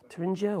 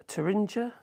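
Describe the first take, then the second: First: Thuringia? retried as "thuh-RIN-ja", level and settled; second pronunciation try. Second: Thuringia? tried as "thuh-RIN-zha", rising like a question; unsure pronunciation. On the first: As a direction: say Thuringia? with a harder j sound, no rise. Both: Shown as a demonstration. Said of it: "I can't pronounce these names".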